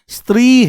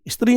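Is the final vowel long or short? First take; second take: long; short. First: The final vowel is said long. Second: The final vowel is said short. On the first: The speaker calls it right. "स्त्री है, क्योंकि बड़ी की मात्रा है।" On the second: The speaker calls it wrong. "स्त्री नहीं है"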